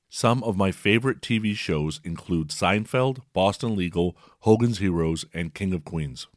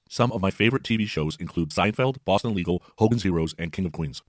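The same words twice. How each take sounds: First: The speech plays at its normal speed. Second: The speech plays much faster than normal. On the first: "here's a few seconds at regular speed" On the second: "And the same message at 1.5x"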